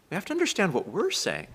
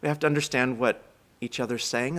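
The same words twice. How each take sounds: First: "we're" pitched up high, then falling; stress on WE'RE. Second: Said in the usual way. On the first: Real, not acted. Speaker turning from each other's words to our own, stress on "we're". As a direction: lean hard on "we're" to contrast it.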